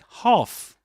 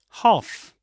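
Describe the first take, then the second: First: The L sound is silent. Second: The same.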